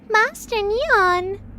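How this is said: It is said in a child's voice.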